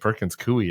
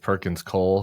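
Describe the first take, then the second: First: The last word ends without an L sound. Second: The last word ends with an L sound. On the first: The speaker calls it right. "that's what it's called" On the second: The speaker calls it wrong. "I've been pronouncing this Perkins Cole for like twenty years"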